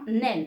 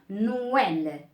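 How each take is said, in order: First: The vowels merge into a single syllable. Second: The two vowels are said as separate syllables. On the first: The speaker calls it wrong. "On ne dit pas euh, Nel, hein, Nel, non" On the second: The speaker calls it right. "on marque no, d'accord? On dit no. Par la suite, well"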